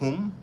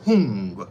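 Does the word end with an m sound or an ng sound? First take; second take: m; ng. First: The word ends with an m sound. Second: The word ends with an ng sound. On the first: This is the Sanskrit form. "instead of the H U M, Hum" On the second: This is the Tibetan form. "you say Hung"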